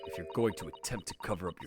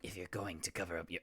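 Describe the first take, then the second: First: It is said in a serious voice. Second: It is said in a goblin-like voice.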